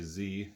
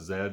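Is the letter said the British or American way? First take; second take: American; British. First: The letter is said the American way. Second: The letter is said the British way.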